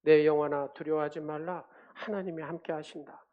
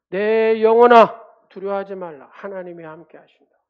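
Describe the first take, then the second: First: Murmured self-encouragement, firm first word then easing; reciting to oneself. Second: Proclaiming to one's soul. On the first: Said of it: "이 말씀을 갖다가 읊조리는 거예요". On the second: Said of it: "이렇게 계속해서 선포하고 읊조리니까". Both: Shown as a demonstration.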